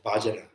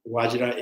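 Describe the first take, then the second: First: The word starts with a B sound, Bangla-style. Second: The word starts with a V sound, Sanskrit-style. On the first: "the Bangladesh uh, accents" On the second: "Actually, it's Vajra"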